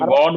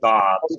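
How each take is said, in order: First: The vowel is rounded, like a Bengali o. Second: The vowel is open, like the a in father. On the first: The speaker calls it wrong. "আমরা গড বলি না" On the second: The speaker calls it right. "এটার American উচ্চারণ আসলে গড, কিছুটা আয়ের মতো।"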